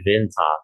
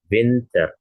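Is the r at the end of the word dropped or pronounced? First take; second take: dropped; pronounced. First: The final r is dropped, British-style. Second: The final r is clearly pronounced.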